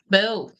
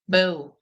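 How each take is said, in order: First: The boo sounds light and half-hearted. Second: The same.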